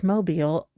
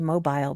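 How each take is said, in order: First: It is said with the local American pronunciation. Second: It is said with an English-style pronunciation. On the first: The speaker calls it right. "but it's mobile" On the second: The speaker calls it wrong. "I want to say mobile, ... I've been listening to too many English based crime things"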